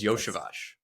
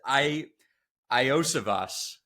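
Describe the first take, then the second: First: The name begins with a 'yo' sound. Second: The name begins with an 'ee-oh' sound. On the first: The speaker calls it right. "It is Yoshivas" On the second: The speaker calls it wrong. "if you think it is I Iosivas, it is not"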